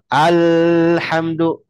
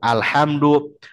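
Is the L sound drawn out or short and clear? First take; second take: drawn out; clear. First: The L sound is drawn out and flowing. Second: The L sound is short and clear. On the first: The speaker calls it wrong. "dialirin. Nggak" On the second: The speaker calls it right. "jelas sebagaimana asalnya"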